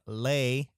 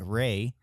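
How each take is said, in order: First: The syllable begins with an L-like sound. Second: The syllable begins with an English R sound. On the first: This is how a Japanese speaker says it. "if you're Japanese" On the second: This is how an English speaker says it. "if you're an English speaking person"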